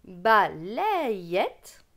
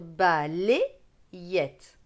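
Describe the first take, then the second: First: "balayette" with open è, ba-lè-yette; Bocher method pronunciation. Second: "balayette" with closed é, ba-lé-yette; regional pronunciation. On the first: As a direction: draw out "balayette" slowly as ba-lèè-yette. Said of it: "donc selon Bocher". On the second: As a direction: say "balayette" slowly as ba-lé-yette, in separate syllables. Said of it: "avec l'accent de ma région". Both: Shown as a demonstration.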